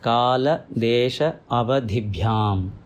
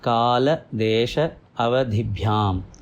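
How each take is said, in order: No difference in how they are said.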